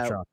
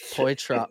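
First: The first syllable sounds like 'pat'. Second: The first syllable sounds like 'poy'. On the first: This is the current, closer pronunciation. The speaker calls it right. "At least you're a little close now" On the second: This is how it was said before. The speaker calls it wrong. "We were saying it Poitra before"

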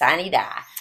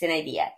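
First: It is pronounced the local Arkansas way. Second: It is pronounced the classical Latin way.

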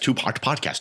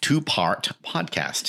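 First: The phrase is said quickly, as a tongue-twister. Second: The phrase is said at a normal pace.

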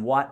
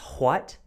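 First: The word is said in a plain, ordinary way. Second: The word is said in a posh, refined way. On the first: The person is younger and speaks naturally. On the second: The person is older and wants to sound sophisticated. "with a bit more sophistication"

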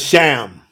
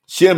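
First: The vowel sounds like the a in ham. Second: The vowel sounds like the e in bed. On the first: The speaker calls it right. "Shem is Sham. S-H-A-M" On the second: The speaker calls it wrong. "Shem is not Shem"

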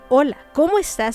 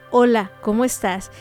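First: It sounds genuinely interested and sincere. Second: It sounds like a casual, routine greeting.

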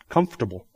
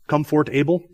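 First: It is reduced to three syllables. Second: All four syllables are pronounced as spelled. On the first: "We all say what? ... Not even close to how it's spelled" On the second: "Is there anybody that really says comfortable?"

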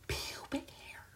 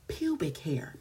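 First: It is whispered. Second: It is said in a full voice.

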